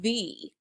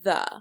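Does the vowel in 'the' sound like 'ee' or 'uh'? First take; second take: ee; uh. First: The vowel sounds like 'ee'. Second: The vowel sounds like 'uh'. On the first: It comes before a vowel sound. "if the word starts with a vowel... you would say the" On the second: It comes before a consonant sound. "just a different pronunciation"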